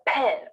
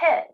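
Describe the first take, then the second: First: The p has a strong, forceful puff of air. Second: The p has a light, gentle puff of air. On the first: The speaker calls it wrong. "It's not a pin" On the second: The speaker calls it right. "It's a pin"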